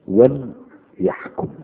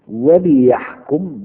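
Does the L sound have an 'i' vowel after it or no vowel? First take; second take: no vowel; i vowel. First: The L sound carries no vowel after it. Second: The L sound is followed by an 'i' vowel. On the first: It is a command to judge. "بإسكان اللام مجزومة" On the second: It gives the purpose, so that they judge. "بكسر اللام فهي لام لكي"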